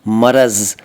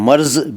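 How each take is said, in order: First: The word is said as two syllables. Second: The word is said as one syllable. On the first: The speaker calls it right. "सही है" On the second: The speaker calls it wrong. "मर्ज भी गलत है"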